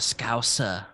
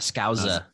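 First: The middle consonant is a hissing S sound. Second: The middle consonant is a buzzing Z sound. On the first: The speaker calls it right. "but it's an S. It's suh" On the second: The speaker calls it wrong. "we keep putting a Z"

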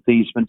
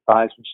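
First: The name does not rhyme with Heisman. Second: The name rhymes with Heisman. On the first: This is the family's original pronunciation. "change the pronunciation of our last name from Theismann" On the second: This is the new, changed pronunciation. "to Theismann"

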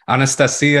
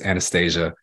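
First: The name is said with a Russian pronunciation. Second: The name is said with an American pronunciation. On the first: "is the way you'd say it in Russian" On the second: "but it's Anastasia here"

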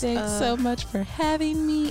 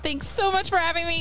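First: It is spoken in an ordinary natural voice. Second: It is spoken in a special put-on voice.

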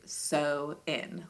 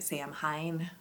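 First: It is said as sow-in, without m or h. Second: It is said as sam-hain, with m and h. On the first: The speaker calls it right. "but it is sow-in, like as in you are sowing seeds in" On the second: The speaker calls it wrong. "I think I was calling it Samhain. Because that's how it's spelled phonetically"

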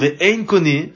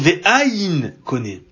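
First: The first word is said as 've-ein'. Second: The first word is said as 've-ain'. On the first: There is no buyer. The speaker calls it wrong. "au lieu de dire Ve'ein koné" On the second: It refers to the level called nothingness. The speaker calls it right. "il faut dire Ve'ain koné"

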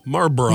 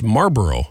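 First: It is said in a British-sounding way. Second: It is said in a plain American way. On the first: "you say it like a British person" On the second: "It's Marlboro"

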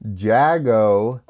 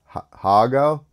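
First: The name begins with an English J sound. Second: The name begins with a Spanish-style H sound. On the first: This is the way an American would say it. "That's how American would say it" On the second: This might be the way the name is really said. "Maybe you don't pronounce the J like in Spanish"

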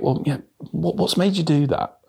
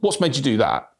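First: The question sounds soft and sympathetic. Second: The question sounds sharp and confrontational. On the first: The listener feels invited to open up. The speaker calls it right. "That tonality difference is going to hopefully make that person feel more inclined to then tell you" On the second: The listener feels challenged and gets defensive. The speaker calls it wrong. "In that tone, the reality is they're going to get their back up"

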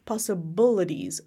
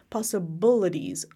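First: The 'bil' syllable has a relaxed schwa vowel. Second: The same.

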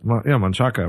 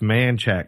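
First: The name is said with a Spanish-style pronunciation. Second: The name is said with a Texan-style pronunciation. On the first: The speaker calls it wrong. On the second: The speaker calls it right. "That's how Texans pronounce it"

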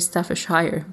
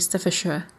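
First: The last syllable is a full 'shire'. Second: The last syllable is a reduced 'sher'. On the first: This is how the spelling suggests it. The speaker calls it wrong. "we never say Staffordshire University" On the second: This is how people actually say it. The speaker calls it right. "We say Staffordshire"

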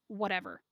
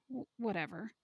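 First: It is said firmly and assertively. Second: It is said hesitantly and self-consciously.

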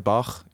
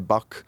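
First: It is said in the speaker's own accent. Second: It is said in an American accent. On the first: This is how the speaker's own community says it. "we say Bach" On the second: This is how the listeners say it. "you say Bach"

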